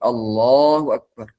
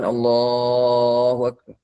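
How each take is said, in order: First: The final syllable is kept fairly short. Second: The final syllable is drawn out long. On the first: It is the opening takbir of the prayer. "sudahnya tidak terlalu dipanjangkan" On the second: It marks a transition between positions in the prayer. "sudahnya dipanjangkan"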